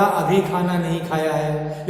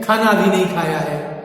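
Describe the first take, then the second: First: Said in the usual way. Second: खाना up front with a firm stress; emphatic खाना opening the sentence. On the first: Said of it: "तो एक सामान्य वाक्य था". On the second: Shown as a demonstration. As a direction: lean on खाना, keep the rest plain. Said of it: "खाना शब्द पर स्ट्रेस देने के कारण".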